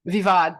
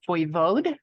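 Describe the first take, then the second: First: It is said with a short 'vee-vad' sound. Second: It is said with a full 'voy-vode' sound. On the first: The speaker calls it right. "the proper pronunciation is Vivad" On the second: The speaker calls it wrong. "I'm not sure if I'm pronouncing that right"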